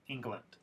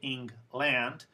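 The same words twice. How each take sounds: First: The second syllable has a reduced schwa vowel. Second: The second syllable has a full 'land' vowel. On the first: The speaker calls it right. "It's not land, it's lund" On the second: The speaker calls it wrong. "it's not wrong. Of course, I understand, but you will sound a little less fluent"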